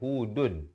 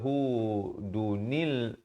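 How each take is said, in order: First: The word ends with a plain 'n' sound. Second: The word ends with an added linking 'nil' sound. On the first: The speaker calls it right. "tapi kita baca hudun" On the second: The speaker calls it wrong. "kita tak baca hudunil"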